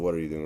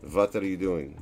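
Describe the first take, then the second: First: The first word starts with a W sound. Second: The first word starts with a V sound.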